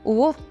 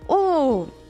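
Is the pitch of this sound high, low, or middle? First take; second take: low; high. First: The sound is said at a low pitch. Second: The sound is said at a high pitch. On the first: "from low tone" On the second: "and then little more high"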